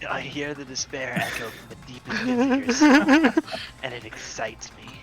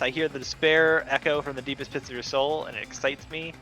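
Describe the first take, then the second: First: It is said imitating Nagito's voice. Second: It is read in the speaker's normal voice.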